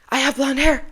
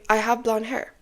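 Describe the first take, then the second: First: It is said with heightened, forced emotion. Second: It is said calmly and casually, without emotion. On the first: The speaker calls it wrong. "why would you speak like that?" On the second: The speaker calls it right. "It's casual. It's normal for you"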